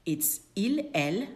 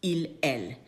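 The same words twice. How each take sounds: First: Il and elle with no s sound at the end; silent final s. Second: Il, elle, no final s pronounced; same as singular. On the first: Teacher shows plural pronouns sound like singular. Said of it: "we do not pronounce them". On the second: Teacher proves plural il, elle sound the same. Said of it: "sounds exactly the same as their singular version". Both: Shown as a demonstration.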